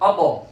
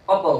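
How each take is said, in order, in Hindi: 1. अंतिम t एक तेज़, छोटी झटके वाली ध्वनि के साथ खत्म होता है। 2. अंतिम t एक तेज़, छोटी झटके वाली ध्वनि के साथ खत्म होता है।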